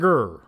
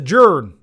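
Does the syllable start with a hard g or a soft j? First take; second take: hard g; soft j. First: The syllable starts with a hard g sound. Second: The syllable starts with a soft j sound. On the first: The speaker calls it wrong. "not a gur" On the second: The speaker calls it right. "It's a jern"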